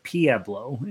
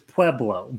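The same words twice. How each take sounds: First: The name has an old local Colorado pronunciation. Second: The name has its standard pronunciation. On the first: This is how older Colorado locals say it. The speaker calls it wrong. "everybody who grew up in Colorado ... calls it Pueblo" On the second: This is the proper name of the town. The speaker calls it right. "the word is Pueblo"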